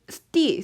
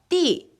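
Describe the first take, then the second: First: It starts with an s sound before t. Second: It starts with a single tense t sound. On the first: This is the older pronunciation. "스티 이게 아니라" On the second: This is the later pronunciation. "띠 이런 소리가 되었다"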